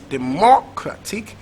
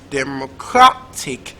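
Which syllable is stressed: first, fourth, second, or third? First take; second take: second; third. First: The stress is on the second syllable. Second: The stress is on the third syllable. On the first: "Is it second syllable" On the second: "Is it third syllable"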